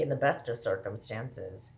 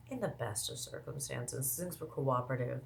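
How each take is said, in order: First: Said in the usual way. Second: Much softer, lower-key repeat; said softly, almost under the voice; quiet aside. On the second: Real, not acted. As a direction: drop the volume for a pointed aside.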